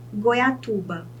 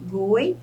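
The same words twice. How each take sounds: First: Said in the usual way. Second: "Goiatuba" split goi, a, tu, ba; syllable by syllable. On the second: Shown as a demonstration. Teacher counts syllables for students, "Goiatuba" syllable by syllable. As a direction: pause between each syllable of "Goiatuba". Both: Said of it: "eu chamo de polissílaba".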